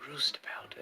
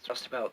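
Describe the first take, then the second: First: The first vowel sounds like 'oo' in 'moo'. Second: The first vowel sounds like 'ow' in 'cow'. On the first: The speaker calls it wrong. "it's probably roostabout, and so that's how I pronounced it" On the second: The speaker calls it right. "pretty confident that it's roustabout"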